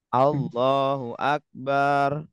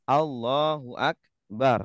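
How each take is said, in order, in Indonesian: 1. Vokal pada suku kata terakhir dipanjangkan. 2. Vokal pada suku kata terakhir pendek. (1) "terkadang ada yang pengucapannya salah" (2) "kita ucapkan Allahu Akbar"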